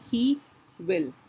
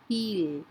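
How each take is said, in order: First: Two separate words are said in full. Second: One merged word with a lengthened vowel.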